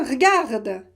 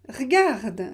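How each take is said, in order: Both takes have the same delivery.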